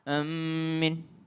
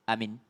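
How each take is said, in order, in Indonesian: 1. M dibaca ganda dengan vokal akhir panjang. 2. Kedua vokal pendek dengan satu m. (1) "dengan mentasydidkan mimnya" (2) "dua-duanya pendek, hamzanya pendek, minnya juga pendek"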